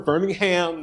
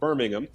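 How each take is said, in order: First: It is said with an American pronunciation. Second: It is said with a British pronunciation. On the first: This names the city in Alabama. "But we're Birmingham" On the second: This names the city in the UK. "you might guess by the pronunciation that's in the U K"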